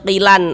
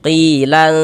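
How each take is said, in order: First: The final n is pronounced clearly and crisply. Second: The final n is hidden and held nasally. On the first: The speaker calls it wrong. "jangan dibaca qilan, lannya berbunyi jelas gitu jangan" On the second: The speaker calls it right. "tapi disamarkan. Qilan lan begitu"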